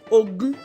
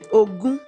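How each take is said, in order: First: The tones are mid then high. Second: The tones are mid then high.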